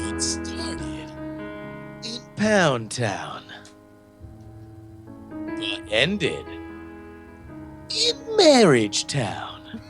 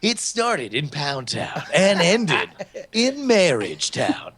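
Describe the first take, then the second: First: It is said slower and in a lower voice. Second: It is said at a normal pace and pitch.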